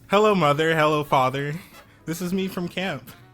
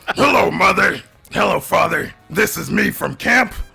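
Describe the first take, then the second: First: It is said in the speaker's ordinary voice. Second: It is said in a put-on monster voice. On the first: "now say that like in your normal voice" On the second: "give us a monster voice"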